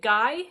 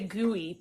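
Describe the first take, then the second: First: It is said as one syllable, like guy. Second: It is said as two syllables, like gooey. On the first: "Is it Guy?" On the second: "I want to say gooey"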